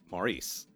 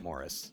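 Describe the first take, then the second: First: The name is said the American way. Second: The name is said the British way. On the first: "in America, and I assume Canada, you pronounce it Maurice" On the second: "British people say it Maurice"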